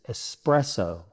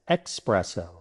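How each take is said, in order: First: It begins with an 'es' sound. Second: It begins with an 'ex' sound. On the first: The speaker calls it right. "The correct pronunciation is espresso" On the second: The speaker calls it wrong. "adding an unnecessary X"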